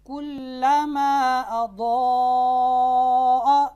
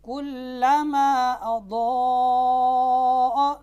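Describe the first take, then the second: First: Quran recitation with the vowel kept short; short vowel, no madd. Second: Quran recitation drawing out the alif; lengthened vowel, madd. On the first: Teacher demonstrating qasr to students, chanted with short vowels. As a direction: recite कुल्लमा अदॉअ with a short alif, no lengthening. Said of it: "कसर करता हूँ आपके सामने". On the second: Teacher demonstrating madd to students, chanted with a long vowel. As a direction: stretch the alif in कुल्लमा अदॉअ to one full beat. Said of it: "इसमें मद के साथ इसको पढ़ता हूँ". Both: Shown as a demonstration.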